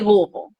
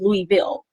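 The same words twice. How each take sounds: First: The name is said in a relaxed everyday way. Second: The name is said in a careful phone voice. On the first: This is how the speaker normally says it. "most of the time I say Louisville" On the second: This is how the speaker says it on the phone. "when I'm on the phone with people, I say Louisville"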